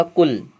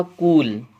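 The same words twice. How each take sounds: First: कुल with a short clipped u, like "kull"; teacher says कुल with a quick short vowel; short u in kul. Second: कूल with a long drawn u, like "kool"; teacher says कूल holding the long vowel. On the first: Teacher to students contrasting similar words, short u. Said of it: "इस कुल का मतलब तो होता है समस्त या वंश". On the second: Teacher to students contrasting similar words, long u. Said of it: "इस कूल का मतलब होता है किनारा". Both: Shown as a demonstration.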